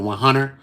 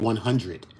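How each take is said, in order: First: It is said in a Philly or Baltimore accent. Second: It is said in a plain, unmarked accent. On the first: "he said one hundred" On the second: "He don't say one hundred"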